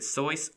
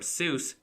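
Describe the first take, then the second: First: The vowel rhymes with voice. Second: The vowel rhymes with juice. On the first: The speaker calls it right. "the correct pronunciation is Soyce, which rhymes with voice" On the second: The speaker calls it wrong. "If you're calling him Seuss"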